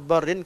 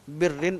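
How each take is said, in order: First: The first vowel is 'a', as in 'bar'. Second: The first vowel is 'i', as in 'bit'. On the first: "dituliskan sebagai barrin" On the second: "saya baca bir daripada awal"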